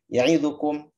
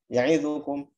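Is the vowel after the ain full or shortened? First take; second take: shortened; shortened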